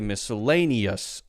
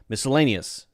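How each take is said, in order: First: The last syllable has a clear full uh vowel. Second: The last syllable's vowel is reduced, almost silent. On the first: "it's a very clear uh, uh, uh sound" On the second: "that's pretty close to almost not being there"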